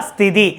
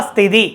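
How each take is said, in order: No difference in how they are said.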